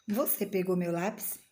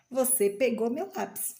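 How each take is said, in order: First: "Você pegou meu lápis" lifting at the end; question. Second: "Você pegou meu lápis" peaking on "meu", then falling; statement. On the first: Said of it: "eu sei que é uma pergunta". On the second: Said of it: "tô afirmando". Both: Shown as a demonstration.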